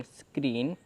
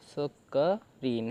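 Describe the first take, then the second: First: Said in the usual way. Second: स क रीन drawn out, softer; slow sounding out. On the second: Shown as a demonstration. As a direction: blend स क रीन slowly and quietly. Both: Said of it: "ऐसे आपका screen बन गया".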